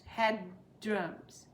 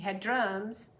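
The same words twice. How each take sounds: First: A brief stop separates the two words. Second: The two words are joined with no stop. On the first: "just stop between the two D's" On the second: "you can say that"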